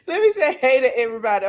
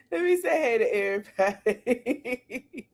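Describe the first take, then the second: First: Said in the usual way. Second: Greeting swallowed by real laughter, softer; words half lost in laughter; laughing. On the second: Real, not acted. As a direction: try to say it but the giggles win. Repeats greeting while laughing.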